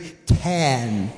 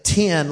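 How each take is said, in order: First: The vowel sounds like the e in ten. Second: The vowel sounds like the i in tin. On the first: The speaker calls it right. "let's all say it properly" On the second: The speaker calls it wrong. "I say 10 like T-I-N"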